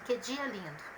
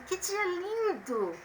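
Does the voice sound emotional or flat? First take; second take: flat; emotional. First: It is said flatly, without strong feeling. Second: It is said with strong, lively feeling. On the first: It states a plain fact. "Se eu colocasse ponto final, ia ficar assim" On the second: It expresses a strong feeling. "Já com ponto de exclamação, eu vou ler assim"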